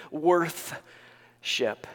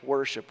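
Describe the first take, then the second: First: "Worthship" drawn out as two parts, "worth" and "ship"; split-word pronunciation. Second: Said in the usual way. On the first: Shown as a demonstration. Preacher explains the word's root, "Worthship" split into worth and ship. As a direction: say "Worthship" with a clear "th" and a break before "ship". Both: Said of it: "What does that mean?".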